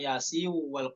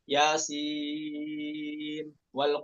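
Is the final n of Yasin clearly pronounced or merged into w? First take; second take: merged; clearly pronounced. First: The n sound merges into the following w. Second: The n sound is pronounced clearly before w. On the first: The speaker calls it wrong. "bukan Yasin wal Qur'an. Itu dari Thoriq yang lain" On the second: The speaker calls it right. "ketika wasol bukan dibaca idgham ya, dibaca izhar"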